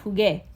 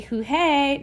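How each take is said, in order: First: Jugué with a firm G as in go; corrected hard G. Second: Jujé with an H sound before é; wrong soft G. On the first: Teacher correcting the unwanted form, hard G in jugué. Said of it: "No, we went jugué". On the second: Teacher showing the sound without the U, H in jujé. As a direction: say jujé, H where hard G belongs. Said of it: "If we didn't have this U here". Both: Shown as a demonstration.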